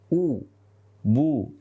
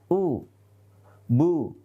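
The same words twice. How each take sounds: First: The u vowel is said with fully rounded lips. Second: The u vowel is said with lax, unrounded lips. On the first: The speaker calls it right. "Harus sempurna" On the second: The speaker calls it wrong. "Tidak boleh kita baca u, bu. Nah, bibir seperti ini tidak boleh"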